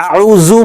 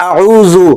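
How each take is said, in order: No difference in how they are said.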